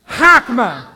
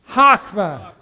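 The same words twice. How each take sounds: First: The word is said sharply, with a forceful burst. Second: The word is said plainly, without extra force. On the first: "now say it like you're going to like cut a board in half" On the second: "Say it with me one more time"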